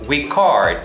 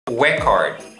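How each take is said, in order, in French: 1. Elle se prononce avec la prononciation verbale. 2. Elle se prononce avec la prononciation nominale. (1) "Enregistrer en anglais se dit record"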